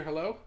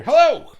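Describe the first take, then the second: First: Said in the usual way. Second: A big, loud, much higher hello with two exclamation points; reading out a fan's hello as loud, high excitement; excited hello. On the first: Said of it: "Crimson just wrote hello with no exclamation points". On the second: Shown as a demonstration. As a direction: shout the greeting like you're thrilled to see her. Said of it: "She wrote exclamation points".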